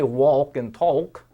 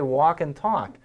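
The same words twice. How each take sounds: First: The L sound is pronounced in both words. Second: The L is silent in both words. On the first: The speaker calls it wrong. "We don't say walk and talk" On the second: The speaker calls it right. "We say walk and talk. Actually sounds like O C K"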